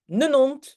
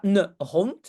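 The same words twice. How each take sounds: First: « ne nont » sans h, le n lié; h muet en tussentaal. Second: Said in the usual way. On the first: Shown as a demonstration. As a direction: dire « ne nont », h effacé et liaison en n. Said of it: "mais ne nont". (« ne nont » en tussentaal, sans h) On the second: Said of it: "Donc c'est pas ne hond".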